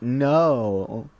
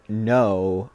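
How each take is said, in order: First: The vowel is drawn out and lengthened. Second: The vowel is said at normal length. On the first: "more like no. You stretch your vowels" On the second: "such as saying no"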